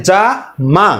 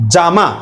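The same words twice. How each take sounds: First: A clear pause between যা and মা; two separate efforts, যা then মা; split into syllables. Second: Said in the usual way. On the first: Shown as a demonstration. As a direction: say যা, stop, then মা as a separate beat. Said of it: "যা বলে একটু থামতেই হবে". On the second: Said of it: "যত দ্রুতই উচ্চারণ করেন না কেন".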